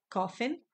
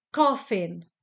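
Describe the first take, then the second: First: "coffin" said as KOF-in, repeated with a clear F. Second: "Coffin" said as KOF-in, the F crisp and distinct; "Coffin" with a clear F. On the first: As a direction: repeat "coffin", landing on the F sound. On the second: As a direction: model "Coffin" for learners, hitting the F in the middle. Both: Shown as a demonstration. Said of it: "F-nek ejtjük".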